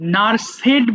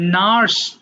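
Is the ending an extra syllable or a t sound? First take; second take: extra syllable; t sound. First: The ending is said as an extra syllable. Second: The ending is a short t sound. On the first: The speaker calls it wrong. "নার্সেড বলো না আবার" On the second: The speaker calls it right. "এটা হবে নার্সড"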